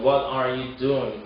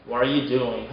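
First: "What are you doing?" with each word sounded; slow, distinct "are" in "What are you doing?"; careful model "What are you doing?"; full careful reading. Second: "What are you doing?" as "whar-you doing"; fuse "What are" into one syllable; "What are you doing?" with "are" merged into "What"; linked R and T. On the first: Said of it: "마지막 문장은 뭐냐면". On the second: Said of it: "R이랑 T가 만나서". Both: Shown as a demonstration.

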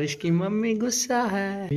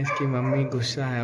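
First: Drawn-out, higher-pitched teasing; slow, lifted tease; teasing announcement. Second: Said in the usual way. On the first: Real, not acted. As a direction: stretch it out slowly and high, teasingly. Teasing announcement that mom is upset.

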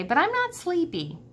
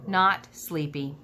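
First: Not sleepy pitched high and pressing; insistent. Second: Said in the usual way. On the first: Acted. Ivan telling Stella he can't sleep, high insistent protest. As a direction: lift the voice, insist on it. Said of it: "I'm tired, I say".

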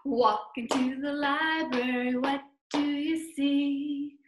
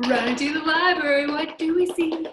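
First: Unhurried rhythmic storytime chant; walking chant. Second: Fast, loud rhythmic chant; chanted, rattle it off as if running along; chanted, hurried, energetic sing-song. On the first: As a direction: chant it at an easy walking beat. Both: Pretend.

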